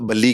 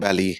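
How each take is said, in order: First: The name is said the Punjabi way. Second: The name is said the English way. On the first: This is how people from Punjab say it. "some people ਉਹ ਬੱਲੀ ਕਹਿੰਦੇ ਜਿੱਦਾਂ ਪੰਜਾਬ ਤੋਂ ਹੁੰਦੇ" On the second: This is how most people and friends say it. "most people ਬੈਲੀ ਕਹਿੰਦੇ ਆ"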